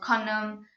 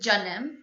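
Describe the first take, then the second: First: The word begins with a k sound. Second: The word begins with a j sound. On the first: "or kanam" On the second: "has the same pronunciation as a J in English"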